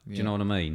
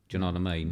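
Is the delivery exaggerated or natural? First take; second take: exaggerated; natural. First: It is said in an exaggerated, overacted way. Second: It is said in a plain, natural way.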